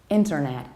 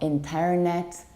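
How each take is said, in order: First: The stress falls on the first syllable. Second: The stress falls on a later syllable. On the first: The speaker calls it right. "we stress the very first syllable" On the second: The speaker calls it wrong. "stress the incorrect syllable"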